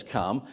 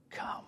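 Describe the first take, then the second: First: "Come." with a gentle questioning rise; "Come." tried with a rising invitation; inviting come. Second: Hushed come. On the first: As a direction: lift the end of "Come." softly. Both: Shown as a demonstration. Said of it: "I don't know what the intonation".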